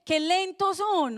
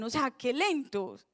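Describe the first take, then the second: First: Slow, mild scolding of "Qué lentos son"; mock scolding Jesus. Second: Said in the usual way. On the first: Jesus chiding slow disciples, slow mild rebuke. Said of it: "otra versión dice".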